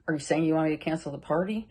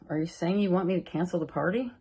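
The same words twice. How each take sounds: First: It sounds defensive and accusing. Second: It sounds sincerely curious and supportive.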